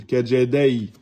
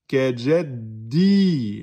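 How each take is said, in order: First: Kajadai ending in an "ay" glide; wrong ya soukoun. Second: Kajaddi with a long held final "i"; prolonged i. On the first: Teacher showing pupils the false reading, gliding ending. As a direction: slide the last vowel of kajadai into y. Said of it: "c'est un ya soukoun". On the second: Teacher modelling prolongation, slow held kajaddi. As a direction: stretch the end of kajaddi into a long ee. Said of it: "le ya de prolongation". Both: Shown as a demonstration.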